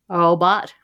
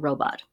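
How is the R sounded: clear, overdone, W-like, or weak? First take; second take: weak; clear. First: The first R is weak and incomplete. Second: The first R is a clear, full R. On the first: The speaker calls it wrong. "where they kind of have the R, but they don't quite have it" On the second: The speaker calls it right. "Say we're working on the R sound"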